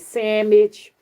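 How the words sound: It is said in a Geechee drawl. "He said sandwich"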